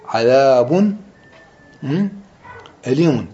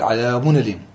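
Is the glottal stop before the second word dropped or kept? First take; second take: kept; dropped. First: The glottal stop is kept before the vowel. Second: The glottal stop is dropped, its vowel moved back.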